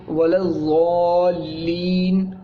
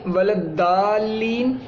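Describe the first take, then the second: First: वलज़्ज़ालीन ज़ौ की आवाज़ से धीरे; slow वलज़्ज़ालीन with a z sound; read as zo. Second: वलद्दालीन दाल की आवाज़ से धीरे; slow वलद्दालीन with a d sound; wrong dal sound. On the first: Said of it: "इसको ज़ौ पढ़ते हैं". (वलज़्ज़ालीन ज़ौ जैसी आवाज़ में धीमे) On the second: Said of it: "वाव ज़बर दा पढ़ें ... तो वो भी गलत है". (वलद्दालीन दाल जैसी ग़लत आवाज़ में) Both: Shown as a demonstration.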